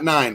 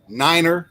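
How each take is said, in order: First: It is said with one syllable. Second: It is said with two syllables. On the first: The speaker calls it wrong. "not nine" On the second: The speaker calls it right. "niner, not nine, but niner"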